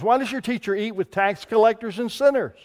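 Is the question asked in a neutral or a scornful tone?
neutral. The question is read in a plain, neutral tone. It is a simple question. The speaker calls it wrong. "I don't know that that's the way they ask it"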